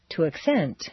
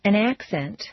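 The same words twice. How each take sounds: First: Second syllable of "accent" stressed; "accent" as a verb, ak-SENT. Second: First syllable of "accent" stressed, full A; "accent" as a noun, AK-sent. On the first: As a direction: hit CENT in "accent", then fall. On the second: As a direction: hit AC in "accent". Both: Shown as a demonstration. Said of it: "regular transitions of nouns and verbs".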